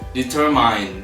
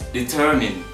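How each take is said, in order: First: The last syllable has a long 'eye' vowel. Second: The last syllable has a short vowel. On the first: The speaker calls it wrong. "mispronounced with I sound at the, at the end" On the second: The speaker calls it right. "the correct one is determine"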